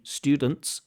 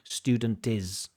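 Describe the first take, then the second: First: The final consonant cluster is said intact. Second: An extra vowel breaks up the final cluster. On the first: The speaker calls it right. "She can't say students" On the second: The speaker calls it wrong. "she has to say student is"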